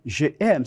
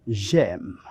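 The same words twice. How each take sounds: First: "je aime" as two separate words, vowels not joined; unelided je aime. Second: "j'aime" run into one slow syllable; elided j'aime. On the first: Teacher shows students the forbidden form, "je aime" unelided. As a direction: say "je aime" with the "je" kept whole before "aime". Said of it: "No podemos decir je aime". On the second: Teacher shows students the correct form, "j'aime" elided. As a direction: say "j'aime" as one word, dropping the vowel of "je". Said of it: "No podemos decir je aime, sino j'aime". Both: Shown as a demonstration.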